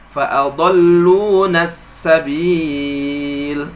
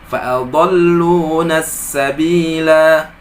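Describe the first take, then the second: First: The last word stops on the consonant l. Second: The last word ends with a long a vowel. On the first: The speaker calls it wrong. "Jangan pula dibaca fa'adalluna as-sabil. Maka itu salah" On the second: The speaker calls it right. "Yang benar adalah"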